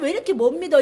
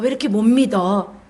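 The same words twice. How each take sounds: First: It is said in a harsh, scolding tone. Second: It is said in a gentle, pitying tone. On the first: The doubter is being rebuked for lacking faith. The speaker calls it wrong. "이게 아니신 것 같아요" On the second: The doubter is being kindly encouraged to believe. The speaker calls it right. "책망하시는 게 아니라 저는 제가 이렇게 말하고 싶어요. 뉘앙스가 그래도"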